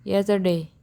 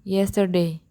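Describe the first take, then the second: No difference in how they are said.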